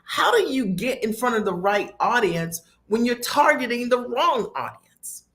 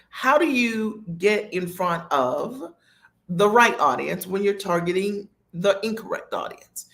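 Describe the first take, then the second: First: It is said at a normal speed. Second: It is said slowly and deliberately.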